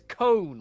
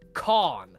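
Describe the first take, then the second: First: The name sounds like the word 'cone'. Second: The name does not sound like 'cone'. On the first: This is how the name's owner says it. "he always says cone, like an ice cream cone" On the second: This is how most people say the name. "Everyone says Kahn"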